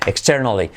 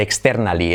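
First: "Externally" with a dark L, like "ex-ter-nolly"; English-style "Externally", stress on TER; English pronunciation. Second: "externally" with Spanish vowels and a clear "-nali" ending; hispanicised "externally", ex-ter-NA-li; Spanish-style mispronunciation. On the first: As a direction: say "Externally" with reduced English vowels. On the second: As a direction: say "externally" as read in Spanish, full A. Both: Shown as a demonstration. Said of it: "nada de externally".

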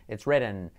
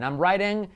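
First: "written" with short "ih", pitch dropping low; short vowel in written. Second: "writing" with a wide "eye" vowel, raised pitch; long vowel in writing. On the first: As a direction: drop "it's written" as the contrasting answer. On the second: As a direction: lift "I'm writing", stretching the "rye". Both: Shown as a demonstration. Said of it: "Esa es la diferencia".

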